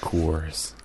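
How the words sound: It is said in an American accent.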